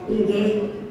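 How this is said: The yes sounds negative and reluctant. "wah ini sih rasa rasanya menuju negatif nih"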